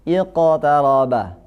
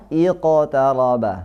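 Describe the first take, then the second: The two takes are said the same way.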